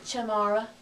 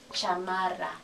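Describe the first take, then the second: First: The unstressed vowels are reduced to schwa. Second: Every vowel keeps a full ah sound. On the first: An English speaker would say it this way. The speaker calls it wrong. "An English speaker would see this word and say" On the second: A Spanish speaker would say it this way. The speaker calls it right. "but no, ... All the I's say ah"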